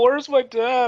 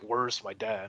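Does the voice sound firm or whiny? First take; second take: whiny; firm. First: It is said in a whiny, complaining voice. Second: It is said in a firm, non-whiny voice. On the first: The character sounds weak and pathetic. The speaker calls it wrong. "It's like he whines through the entire game" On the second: The character sounds determined. The speaker calls it right. "he could have made it like"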